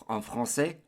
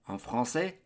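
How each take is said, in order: The two takes are said the same way.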